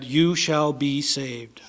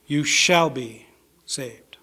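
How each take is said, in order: First: Hushed whisper. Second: Said in the usual way. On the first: Acted. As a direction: whisper "you shall be saved" slowly, breathless. Preacher repeats the promise.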